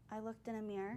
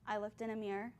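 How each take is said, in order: First: It is said more quietly. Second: It is said more loudly.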